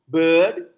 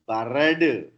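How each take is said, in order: First: No extra vowel, and the r is dropped. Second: An extra vowel and a sounded r appear. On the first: The speaker calls it right. "No, bird" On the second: The speaker calls it wrong. "we don't say barad"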